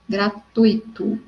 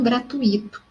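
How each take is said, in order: First: Gratuito broken slowly into gra-TUI-to; careful demo of gratuito as gra-TUI-to; stress on TUI. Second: Gratuito as gra-tu-Í-to; wrong stress on I. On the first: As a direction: draw out gratuito, "tui" as one strong syllable. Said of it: "a sílaba tônica é o tui". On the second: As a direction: lean on a separate "i" in gratuito. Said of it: "e não o i". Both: Shown as a demonstration.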